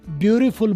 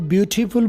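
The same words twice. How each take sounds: First: The t sounds like r, American style. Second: The t is crisp, British style.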